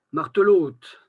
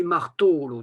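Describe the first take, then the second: First: Martelote said loud with the final lote stressed; Vannes stress on final. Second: Marteau-lourd with the weight on the to syllable; Breton stress on to. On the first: Lecturer imitating the Vannes final-syllable stress in martelote. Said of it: "Les Vantais, par contre, ils disent". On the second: Lecturer demonstrating the penultimate stress in marteau-lourd. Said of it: "en qualité, on dit". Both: Shown as a demonstration.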